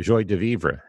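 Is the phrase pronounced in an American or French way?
American. The phrase is pronounced the American way.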